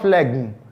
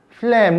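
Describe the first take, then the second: First: The G sound is pronounced. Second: The G sound is silent. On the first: The speaker calls it wrong. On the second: The speaker calls it right.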